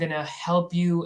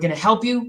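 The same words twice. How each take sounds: First: It is said hesitantly, with filler sounds around it. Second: It is said firmly and directly, without fillers. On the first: The speaker is unsure of what they offer. The speaker calls it wrong. "you're not like, uh" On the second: The speaker knows what they are talking about. The speaker calls it right. "You have to be certain"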